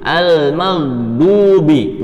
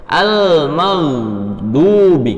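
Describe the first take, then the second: No difference in how they are said.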